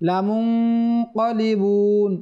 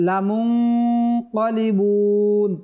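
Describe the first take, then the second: The two takes are said the same way.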